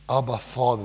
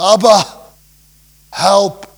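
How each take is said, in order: First: Said in the usual way. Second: Loud, high cry for help; desperate cry. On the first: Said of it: "this is not just". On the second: Shown as a demonstration. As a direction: call out to Abba as if in desperate need. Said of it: "It's a cry".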